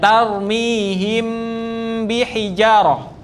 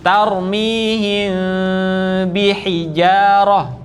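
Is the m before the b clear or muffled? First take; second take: clear; muffled. First: The m is fully closed and clearly sounded. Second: The m is hidden, nasal, with lips slightly open. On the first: The speaker calls it wrong. "tidak dibaca jelas mimnya atau m-nya, tidak tarmihim bihijarah" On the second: The speaker calls it right. "tapi sedikit dibuka, kasih rongga sedikit"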